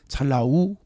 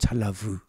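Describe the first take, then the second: First: The last syllable is a plain u vowel. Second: The last syllable starts with a v sound. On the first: "우로 발음하기도 합니다" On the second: "V로 발음하기도 하고"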